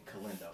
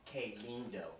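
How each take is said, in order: First: "Calindo" run together as one name; misheard name Calindo. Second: "que lindo" slowly, as two Spanish words; correct Spanish phrase. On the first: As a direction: say "Calindo" softly, like a single name. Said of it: "she's not saying Calindo". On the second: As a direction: separate "que lindo" softly, "que" as kay. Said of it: "She's saying que lindo". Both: Retold or imitated.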